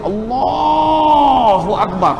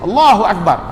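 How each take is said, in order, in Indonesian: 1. Frasa "Allahu akbar" diucapkan dengan memanjang, dengan cara yang penuh kekaguman. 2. Frasa "Allahu akbar" diucapkan dengan polos, dengan pelafalan yang cermat. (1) "itu tak boleh" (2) "itu tak apa"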